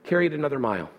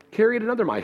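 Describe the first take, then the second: First: Said in the usual way. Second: Rising emphasis on "Carry it another mile"; emphatic repeat. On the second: Shown as a demonstration. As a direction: hit "Carry" hard on the repeat. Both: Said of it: "repeated with emphasis".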